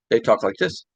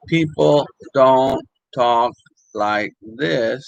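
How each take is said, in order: First: "talk like this" slurred into one quick string, no gaps; words run together. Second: Slow, word by word, with gaps between; parole separate. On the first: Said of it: "with no separation really between them". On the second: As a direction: separate each word in "people don't talk like this". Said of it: "They don't separate the words". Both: Shown as a demonstration.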